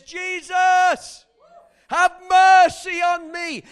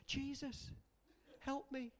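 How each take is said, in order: First: Loud, high cry for mercy; desperate shout. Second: Limp, much softer plea; half-hearted mock prayer, soft and lifeless; insipid prayer. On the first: Retold or imitated. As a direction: yell it at the top of your lungs for help. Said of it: "he was shouting so loud". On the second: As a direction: mumble it like you barely care. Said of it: "like some insipid Christians".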